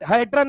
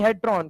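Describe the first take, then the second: First: "हेड्रन" with a short, unrounded last vowel; wrong pronunciation. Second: "हेड्रॉन" with a long, open o in the last syllable; correct pronunciation. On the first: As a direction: end "हेड्रन" on a short -dran. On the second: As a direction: end "हेड्रॉन" on a rounded -dron. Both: Shown as a demonstration. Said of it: "हेड्रन नहीं".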